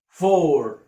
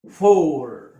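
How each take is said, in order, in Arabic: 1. يُنطق الصوت مثل 'or'. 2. يُنطق الصوت مثل 'or'.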